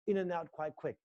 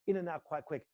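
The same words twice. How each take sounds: The two takes are said the same way.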